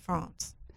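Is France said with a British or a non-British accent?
British. France is said with a British accent.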